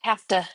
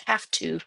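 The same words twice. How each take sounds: First: Texas accent. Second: Said in the usual way. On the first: Real, not acted. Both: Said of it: "that's my Texas accent".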